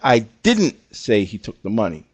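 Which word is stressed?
say. The stress is on "say".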